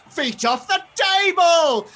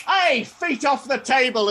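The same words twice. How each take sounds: First: Much higher, louder, drawn-out echo; exaggerated high copycat yell; mimicking shout. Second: High, loud telling-off; raised-voice stallholder's order; scolding shout. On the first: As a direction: parrot the order back, stretched out. Duplicate echoes the scolding. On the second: Acted. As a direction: call out sharply to someone misbehaving. Stallholder scolds his duplicate.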